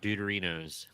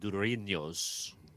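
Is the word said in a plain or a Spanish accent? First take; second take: plain; Spanish. First: The word is said in a plain accent. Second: The word is said in a Spanish accent.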